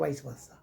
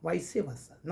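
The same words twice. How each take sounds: First: Vice versa with vice as one syllable, 'vais'; wrong vice versa. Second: Vice versa with vice in two syllables, 'vai-see'; correct vice versa. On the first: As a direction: misread vice versa as 'vais-vasa', no middle vowel. (vice versa का गलत उच्चारण, 'वाइस वासा') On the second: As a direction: model vice versa as 'vai-see-varsa'. (vice versa का सही उच्चारण, 'वाइसी वर्सा') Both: Shown as a demonstration. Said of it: "not vice versa".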